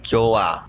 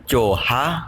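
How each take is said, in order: First: No h sound is heard in the middle. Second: An h sound is heard in the middle. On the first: The speaker calls it right. "hiatnya di sini hilang, tidak dibaca" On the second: The speaker calls it wrong. "Dibaca bukan coha"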